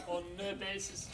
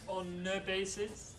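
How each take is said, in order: The two takes are said the same way.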